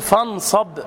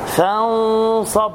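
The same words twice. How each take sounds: First: The n is pronounced fully and clearly. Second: The n is hidden with a measured nasal sound. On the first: The speaker calls it wrong. "لا تقل فانصب، فن خلاص" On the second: The speaker calls it right. "فانصب مع تفخيم الغنة"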